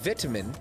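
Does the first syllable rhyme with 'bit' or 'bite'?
bit. The first syllable has a short vowel. The speaker calls it wrong. "you don't say vitamin"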